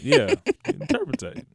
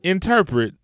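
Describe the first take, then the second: First: Interpretate said with an extra -tate ending, in-TER-pre-tate; mispronounced word. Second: Interpret said in three syllables, in-TER-pret, no -tate ending; corrected word. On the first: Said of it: "Did I say that right?". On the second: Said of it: "What's the word?". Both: Real, not acted.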